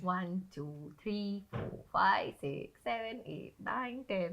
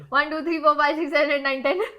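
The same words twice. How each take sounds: First: The numbers are counted slowly and calmly. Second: The numbers are counted very fast.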